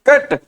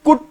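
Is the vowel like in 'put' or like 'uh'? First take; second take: uh; like put. First: The vowel is an open 'uh' sound. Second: The vowel is the 'oo' sound of 'put'. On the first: The speaker calls it right. "ए की sound आ रही है" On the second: The speaker calls it wrong. "हम इसको पुट कुट बुट क्यों नहीं बोल सकते"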